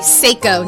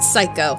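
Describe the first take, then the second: First: The first syllable sounds like 'say'. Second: The first syllable sounds like 'sigh'. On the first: The speaker calls it right. "I'm sorry, Seiko" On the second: The speaker calls it wrong. "not Psycho"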